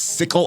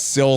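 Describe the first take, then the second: First: The name is said with two syllables. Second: The name is said with one syllable. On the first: The speaker calls it wrong. "I thought it was Sickle of the Drakes because I guess I was imposing the Y and the C" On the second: The speaker calls it right. "It looks like it is Sill"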